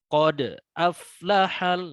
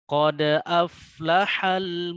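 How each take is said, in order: First: There is a break after the bounced consonant. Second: The bounced consonant flows straight into the next. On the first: The speaker calls it wrong. "terlepas ya. Jadi ini ada jeda" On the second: The speaker calls it right. "seperti itu cara membacanya untuk yang qalqalah sughra"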